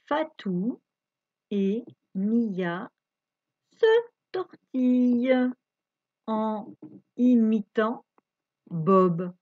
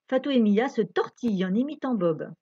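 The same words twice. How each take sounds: First: It is read at a slower pace. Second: It is read at a faster pace.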